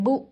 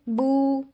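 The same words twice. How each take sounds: First: The vowel is cut off short with a jolt. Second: The vowel is stretched out extra long. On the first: "इतना छोटा कर देते हैं कि उसमें झटका आ जाता है" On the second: "हम इनको एक्स्ट्रा लंबा कर देते हैं, यानी इसको टू काउंट्स दे के"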